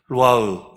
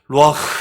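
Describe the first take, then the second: First: The final h has little breath. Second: The final h has a strong breath out. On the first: The speaker calls it wrong. "이라면 발음이 안 돼요" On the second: The speaker calls it right. "이렇게 숨을 하고 내셔야 제대로 되는 발음"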